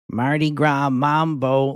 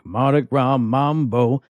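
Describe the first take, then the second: First: It is said in a Midwestern American accent. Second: It is said in a Southern American accent. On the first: "I heard the most Midwestern voice come out of this lady" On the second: "she has a southern accent, and when you ask me to do something in an accent, that's kind of how I sing it back"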